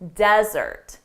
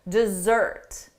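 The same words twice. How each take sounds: First: The stress is on the first syllable. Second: The stress is on the second syllable. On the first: It is the noun. "the syllable stress is on the first syllable" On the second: It is the verb. "the syllable stress is on the second syllable"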